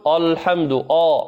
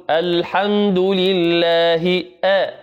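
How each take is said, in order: First: الحمد with the hamza thickened like a foreign آ; wrong heavy hamza. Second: الحمد لله said very slowly, hamza kept thin; careful Quranic recitation; correct light hamza. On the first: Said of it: "بعض الناس يقول". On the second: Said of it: "نقول". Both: Shown as a demonstration.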